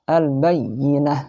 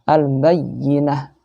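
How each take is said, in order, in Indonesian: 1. Bunyi y digandakan dan ditekan. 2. Bunyi y digandakan dan ditekan.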